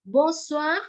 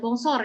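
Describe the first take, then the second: First: The word ends with a 'swar' sound. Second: The word ends with a plain 'sor' sound. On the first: The speaker calls it right. "Oi dibaca wa" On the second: The speaker calls it wrong. "ini jangan dibaca bongsor ya"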